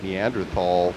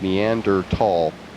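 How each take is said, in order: First: The middle consonant is a th sound. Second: The middle consonant is a plain t sound. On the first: The speaker calls it wrong. "I pronounced it Neanderthal for a long time until I read the correct pronunciation" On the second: The speaker calls it right. "and the H is silent"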